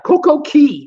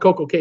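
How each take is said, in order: First: The second word rhymes with 'see'. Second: The second word rhymes with 'day'. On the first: The speaker calls it right. "Coco Key is how you pronounce it" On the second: The speaker calls it wrong. "I used to call it Coco K"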